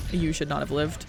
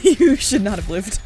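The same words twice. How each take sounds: First: Said in the usual way. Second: Louder, slow, emphatic disbelief; disbelieving exclaim. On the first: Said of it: "first take, said quietly". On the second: Acted. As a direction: stretch it out in amazement. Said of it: "repeated with laughing disbelief".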